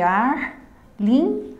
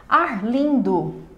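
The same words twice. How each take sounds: First: "Arlindo" in three slow beats: ar, lin, do; syllable by syllable. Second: Said in the usual way. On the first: Shown as a demonstration. Teacher separating a name for students, syllable by syllable. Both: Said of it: "Separando o nome Arlindo".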